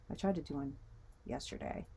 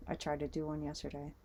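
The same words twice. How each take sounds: First: Said in the usual way. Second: Talking with something in the mouth; words around an object in the mouth; mouth full. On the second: Real, not acted. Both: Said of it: "Sorry, I had this in my mouth".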